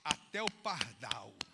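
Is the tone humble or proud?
humble. It is said in a humble, broken tone. The speaker sees himself as worthless. The speaker calls it right. "ele faz assim, ó"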